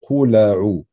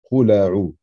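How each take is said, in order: No difference in how they are said.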